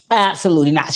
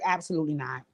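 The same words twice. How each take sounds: First: "Absolutely not." repeated loud and emphatic; imitating Drea's loud, emphatic refusal; louder retold refusal. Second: Low, soft, firm "Absolutely not."; soft low-voiced refusal, imitating Drea; quiet retold refusal. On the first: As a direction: punch "Absolutely not." out loud the second time. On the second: Retelling Drea's firm refusal.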